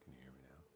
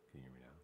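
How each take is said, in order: First: Whispered mic check. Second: Said in the usual way. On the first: Shown as a demonstration. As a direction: breathe it out in a whisper. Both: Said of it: "mic check, then whispered".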